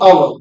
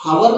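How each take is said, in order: First: The word begins with a vowel sound. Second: The word begins with an h sound. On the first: The speaker calls it right. "हम पढ़ते हैं आवर" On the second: The speaker calls it wrong. "हावर नहीं पढ़ते"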